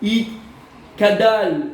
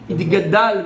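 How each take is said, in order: First: The middle consonant is a hard K sound. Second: The middle consonant is a voiced G sound. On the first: The speaker calls it wrong. "Les gens ils se trompent" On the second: The speaker calls it right. "Il vient un couvre du guimel"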